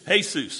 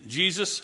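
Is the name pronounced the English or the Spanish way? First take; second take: Spanish; English. First: The name is said with Spanish pronunciation. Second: The name is said with English pronunciation.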